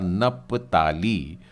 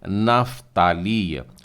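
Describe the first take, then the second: First: The middle consonant is a p sound. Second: The middle consonant is an f sound. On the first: This is the Hindi form of the name. "हमारा हिंदी में बोले जाने वाला नपताली" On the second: This is the Hebrew form of the name. "इब्री उच्चारण में नफ्ताली"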